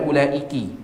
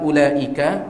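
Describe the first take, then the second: First: The word ends with an 'i' vowel. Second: The word ends with an 'a' vowel. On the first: "boleh juga antum baca ulaiki" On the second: "Ini boleh antum baca yang punya kitab ulaika"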